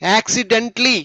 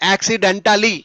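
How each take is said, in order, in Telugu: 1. ఈ పదం 'dent-ly' తో ముగుస్తుంది, అదనపు అక్షరం లేదు. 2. ఈ పదం 'den-ta-ly' తో ముగుస్తుంది, అదనపు అక్షరం ఉంది. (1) "అక్కడ టా అనకూడదు" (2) "నాట్"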